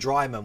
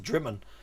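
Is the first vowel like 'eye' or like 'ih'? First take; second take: eye; ih. First: The first vowel sounds like 'eye'. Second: The first vowel sounds like 'ih'. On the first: The speaker calls it wrong. "I kept pronouncing Dryman" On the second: The speaker calls it right. "when it's Drimmen"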